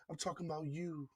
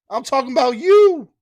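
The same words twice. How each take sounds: First: Much softer, almost under the breath; hushed echo. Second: Louder, higher punch on you; emphatic call-out. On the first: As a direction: let it fade like an echo. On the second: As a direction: point straight at the listener with it. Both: Real, not acted. Host repeats line, then drops away.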